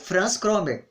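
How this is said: The name is pronounced the Portuguese way.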